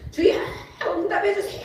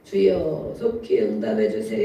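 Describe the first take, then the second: First: It is cried out earnestly and intensely. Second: It is said plainly, without intensity.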